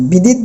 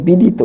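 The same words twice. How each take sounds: First: বিদিত ending on a bare t, "bidit"; wrong pronunciation. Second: বিদিত as "bidito", ending on o; correct final o. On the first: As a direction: drop the final vowel of বিদিত. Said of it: "বিদিত বলতে পারবো না". (বিদিত শেষে হসন্ত ত দিয়ে, ভুল উচ্চারণে) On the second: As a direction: finish বিদিত with a clear "to". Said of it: "বলতে হবে বিদিত". (বিদিত শেষে ও-কার দিয়ে) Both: Shown as a demonstration.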